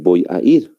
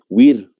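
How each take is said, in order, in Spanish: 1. El primer sonido es una b labial. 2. El primer sonido es una w redondeada. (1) "y no" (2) "ellos pronuncian wir"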